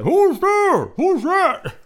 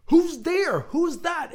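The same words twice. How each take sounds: First: Much louder, high panicked yell. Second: High, louder muffled shout; a smaller first try at the yell; first take yell. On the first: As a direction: scream it muffled from the sack. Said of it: "Henry yelled". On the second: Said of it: "So I should have said". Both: A narrator's reading.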